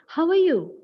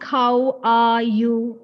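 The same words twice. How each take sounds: First: The word are is weak and reduced. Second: The word are is fully and prominently pronounced. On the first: The speaker calls it right. "That R is not to be made prominent" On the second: The speaker calls it wrong. "We don't say it like that"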